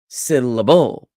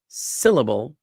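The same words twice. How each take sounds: First: The stress is on the first and last syllables. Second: The stress is on the first syllable only. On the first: The speaker calls it wrong. "where I would emphasize sit and bull and de-emphasize lit" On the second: The speaker calls it right. "sit is the emphasized syllable in syllable"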